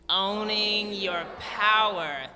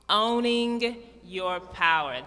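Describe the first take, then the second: First: It is said powerfully, with force. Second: It is said weakly, without force.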